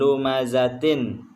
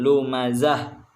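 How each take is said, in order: First: The word ends with a -tin syllable. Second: The word ends with a soft h sound. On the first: The reader continues past this word. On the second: The reader stops at this word. "kalau kita berhenti di ayat tersebut maka dibaca"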